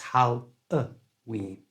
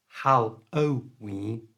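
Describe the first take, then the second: First: The middle vowel is a short schwa sound. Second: The middle vowel is a full O sound. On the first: The speaker calls it right. "it's Hal-a-ween" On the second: The speaker calls it wrong. "So it's not Hal-o-ween"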